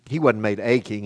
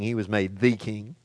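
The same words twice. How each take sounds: First: A said as a full "ay"; stress on A. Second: THE said as a full "thee"; stress on THE. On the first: Preacher correcting himself to the congregation, stress on A. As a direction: lean on A as the word to correct. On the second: Preacher setting Jesus above other kings, stress on THE. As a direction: set THE apart as the one and only. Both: Shown as a demonstration.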